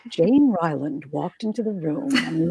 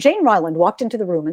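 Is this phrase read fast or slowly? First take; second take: slowly; fast. First: The phrase is read slowly with more space. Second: The phrase is read quickly with little space. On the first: The speaker calls it right. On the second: The speaker calls it wrong. "instead of saying"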